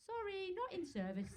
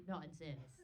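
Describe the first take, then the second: First: High, piping mock apology; apologetic bus. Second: Said in the usual way. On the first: English bus announcing itself, mock apologetic. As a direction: imitate an over-polite bus sign. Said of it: "even your buses say". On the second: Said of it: "ours do say".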